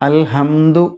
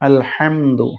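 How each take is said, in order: First: The ha is plain and short, Malayalam style. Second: The ha is drawn out with lips spread wide. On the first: The speaker calls it wrong. "എന്നല്ല" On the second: The speaker calls it right. "ഹ ചുണ്ടിങ്ങനെ ചിരിക്കും പോലെ നീളത്തിൽ നീട്ടിയിട്ടാണ് ഹ ഉച്ചരിക്കേണ്ടത്"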